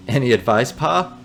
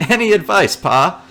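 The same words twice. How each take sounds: First: Said in the usual way. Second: Loud eager question; louder, higher repeat. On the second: Pretend. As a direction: raise the voice and pitch on it.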